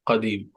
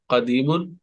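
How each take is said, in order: First: The word ends on the 'm' sound. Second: The word ends with an 'un' ending.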